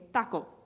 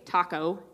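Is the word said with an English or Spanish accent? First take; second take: Spanish; English. First: It is said with a Spanish accent. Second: It is said with an English accent. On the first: "but they would say taco" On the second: "we would say taco"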